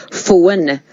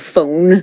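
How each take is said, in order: First: "phone" stretched as "foe-un"; other side's phone. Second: Said in the usual way. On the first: Shown as a demonstration. Guest contrasting neighbouring accents, other side's pronunciation. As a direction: say phone in two beats, "foe-un". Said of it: "they would say phone". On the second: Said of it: "instead of phone".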